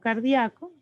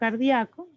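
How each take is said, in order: First: The i and a merge into one syllable. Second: The same.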